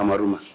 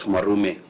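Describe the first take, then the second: First: The name ends with an 'ah' vowel. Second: The name ends with an 'eh' vowel. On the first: The speaker calls it right. "Senator Mwaruma" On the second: The speaker calls it wrong. "not Mwarume"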